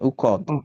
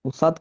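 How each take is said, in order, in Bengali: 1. মাঝের ব্যঞ্জনটি একটি গভীর k-এর মতো শব্দ। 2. মাঝের ব্যঞ্জনটি একটি s শব্দ। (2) "উসাদ কেন আসছে"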